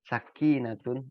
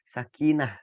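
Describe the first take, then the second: First: The word ends with a full -tun syllable. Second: The word ends with a soft -h sound. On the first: "tulisannya sakinatun" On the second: "kita membacanya menjadi hak biasa"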